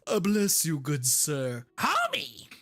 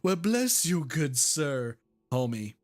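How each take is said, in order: First: It is said in a Marge Simpson voice. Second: It is said in a normal voice.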